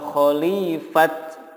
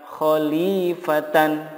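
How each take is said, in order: First: The word ends in a bare t sound. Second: The word ends in t, a, and n. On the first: "atau khalifat, nggak boleh" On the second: "Begitupun kata khalifatan"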